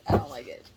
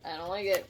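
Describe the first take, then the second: First: "I don't like it" pushed out louder, breathy; louder repeat. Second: Said in the usual way. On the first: Real, not acted. Reader repeating her dislike of the energy, louder. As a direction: say "I don't like it" again with force.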